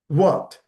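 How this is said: It sounds encouraging, prompting someone to continue. The listener wants the other person to go on. "Then you prompt by saying what"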